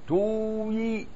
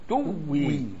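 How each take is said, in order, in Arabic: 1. تبقى الحركة الطويلة منفصلة، ولا تندمج. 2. تندمج الحركة الطويلة في واو مضعفة. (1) "بإظهار" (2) "وإدغامه"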